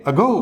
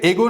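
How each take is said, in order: First: अगो as "uh-GO", first vowel light; weak schwa opening. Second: एगो with a full "ay" opening; mispronounced first vowel. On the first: Teacher models the correct word, अगो with schwa "uh". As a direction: open अगो on a faint "uh", stress on GO. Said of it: "तो ये अ का sound हो गया". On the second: Teacher rejects the common reading, एगो with a stressed "ay". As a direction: start एगो on a strong "ay". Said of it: "ये एगो नहीं है". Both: Shown as a demonstration.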